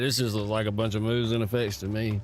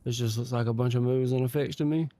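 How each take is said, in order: First: It is read in a dismissive, negative tone. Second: It is read in a plain, neutral tone.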